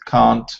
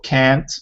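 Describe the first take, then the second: First: It is said with a British accent. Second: It is said with an American accent. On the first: "British, and Australian" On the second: "is the American"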